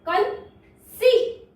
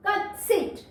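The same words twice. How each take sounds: First: Drawn-out word. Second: Said in the usual way. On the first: Shown as a demonstration. Teacher presents the next word, stretching conceit slowly. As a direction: break conceit open with a long, held सीट. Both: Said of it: "देखिए next word".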